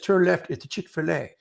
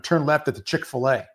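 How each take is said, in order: First: It is said in a British accent. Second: It is said in the speaker's usual accent.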